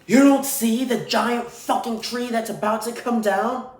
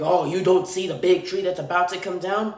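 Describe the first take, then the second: First: Imitating a yelling worker. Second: Lightly voiced, sarcastic whine; a hint of the annoyed worker, toned down; mock upset. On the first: Road worker yelling after a passing driver, high mock yell. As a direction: yell it like the angry tree guy. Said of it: "he then starts screaming at me". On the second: Worker retold as upset at the driver, mild mocking tone. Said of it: "this guy goes upset".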